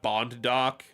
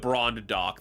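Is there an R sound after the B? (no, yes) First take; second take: no; yes. First: The first word is said without an R. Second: The first word is said with an R.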